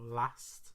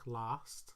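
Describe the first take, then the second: First: The vowel is short and flat, as in cat. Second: The vowel is long and open, as in father. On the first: "It sounds like the A in cat" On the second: "It sounds like the A in father"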